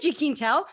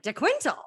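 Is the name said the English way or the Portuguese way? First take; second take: Portuguese; English. First: The first part is a Portuguese 'jee' sound. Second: The first part is a plain English 'dee' sound. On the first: This is the original family form. "which Quintal in Portuguese" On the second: This is the easier, anglicized form. "I heard De Quintal"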